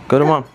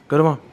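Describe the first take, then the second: No difference in how they are said.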